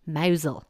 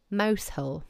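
First: "Mousehole" as MOW-zul; local pronunciation. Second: "Mousehole" as mouse plus hole; spelling pronunciation. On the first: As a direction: squash "Mousehole" to "mowzle", no h. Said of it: "it's pronounced". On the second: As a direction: say "Mousehole" like the two English words. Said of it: "what I would say". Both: Shown as a demonstration.

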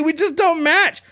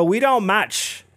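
First: Very high squeaky whine on "We just don't match."; "We just don't match." in a shrill mocking whimper; whiny mock [name]. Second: "we don't match." said slowly, a little higher; lightly voiced rapper saying "we don't match." dismissively; mild mock dismissal. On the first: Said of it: "He's like". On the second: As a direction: brush him off with slow "we don't match.". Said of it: "And [name] goes".

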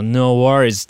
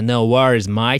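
First: A relaxed Aussie "No worries" with a falling tune; Australian accent. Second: Easygoing Aussie "No worries" falling, "mate" rising; relaxed Australian "No worries, mate"; Australian accent. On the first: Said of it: "まあなんかあっても、「まあいいじゃん」". (気楽なオーストラリア訛り) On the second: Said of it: "って言うんですけどね". (のんびりしたオーストラリア訛り) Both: Retold or imitated.

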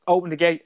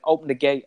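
First: Repeated louder and higher, "Open the gate" pressed harder; insistent repeat. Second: Said in the usual way. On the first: Retold or imitated. Dad on the phone repeats the order to open the gate, more insistent. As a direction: push the second "Open the gate" with mild impatience. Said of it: "he's like". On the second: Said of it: "He's like".

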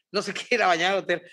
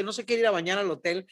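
First: Fast, laughing through no se quiere ir a bañar al hotel; laughing repeat. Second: Said in the usual way. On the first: Real, not acted. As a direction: rush it out giggling. (repetición rápida entre risas)

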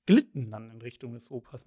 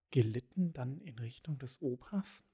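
First: "Glitten" said as one tight glit-ten, hard K-like G; "Glitten" crisply, two syllables, no extra vowel; corrected word. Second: "Gelitten" said as ge-lit-ten, with an extra e after G; "Gelitten" in three syllables, soft G, questioning rise; misread word. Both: Shown as a demonstration. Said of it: "nehme ich mal an".

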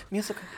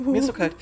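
First: Soft freezing shipwreck survivor voice; Kate Winslet in Titanic. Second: Teeth chattering. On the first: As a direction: whisper it like freezing in icy water. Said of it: "ich kann jetzt auch Kate Winslet aus Titanic machen". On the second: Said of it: "so tun, als wären wir in einem dunklen Raum". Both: Pretend.

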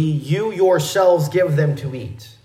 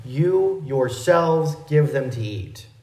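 First: "yourselves" leaned on, the rest read evenly; stress on yourselves. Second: "You" hit first, the whole line slowed down; stress on you. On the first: Pastor reading the literal Greek rendering to the church, stress on "yourselves". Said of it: "a little more literal rendering". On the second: Pastor showing the congregation the extra pronoun, slow, pressing "You". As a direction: land on "You", then take it slow. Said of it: "placing the emphasis on that extra pronoun". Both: Shown as a demonstration.

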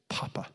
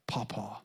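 First: Hushed small voice repeating Papa; a child softly repeating the word; soft child echo. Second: Unvoiced whisper of Pawpaw; a little girl whispering the word back; whispered child echo. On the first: Retold or imitated. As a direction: quietly say it back like a toddler. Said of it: "She said". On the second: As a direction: breathe it back like a shy toddler. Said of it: "Say, um".

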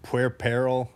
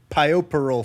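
First: "puerperal" said slowly as pwɛɹ-pɛɹ-əl; careful pronunciation. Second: "puerperal" said as pai-oh-per-al, wrong; wrong pronunciation. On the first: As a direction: spell out "puerperal" sound by sound, slowly. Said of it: "do you know how to pronounce". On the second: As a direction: misread "puerperal" like pai-oh-perl. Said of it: "Yeah, puerperal". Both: Shown as a demonstration.

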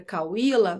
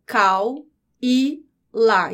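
First: Said in the usual way. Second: "cau e lá" slowly, one syllable at a time; split into syllables. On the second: Shown as a demonstration. Teacher separates the syllables of cauíla, slow syllable-by-syllable "cau e lá". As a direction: break "cau e lá" into three separate beats. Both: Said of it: "Quando eu separo as sílabas".

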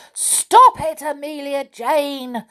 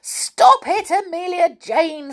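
First: Shouting angrily at the doll; angry shout. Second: Squealing high and loud. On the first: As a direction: yell it out, fed up and cross. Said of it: "shouted the Clockwork Clown angrily". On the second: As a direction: squeal it like a little engine. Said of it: "squealed the engine". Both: A narrator's reading.

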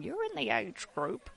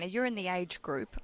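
First: Lightly mocked nana voice, higher pitched; a hint of fussy grandmother. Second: Said in the usual way. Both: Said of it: "I sound like a nana saying".

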